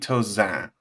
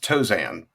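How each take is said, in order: First: It is said with a French pronunciation. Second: It is said with an English pronunciation. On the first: The speaker calls it right. "it's supposed to be Tozan, but that's too much for most people" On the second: The speaker calls it wrong. "it's Tozan, but even that's wrong"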